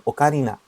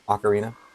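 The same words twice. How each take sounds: First: It is said with Japanese-style pronunciation. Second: It is said with English-style pronunciation. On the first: "in Japanese, it would be" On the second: "but I don't know if"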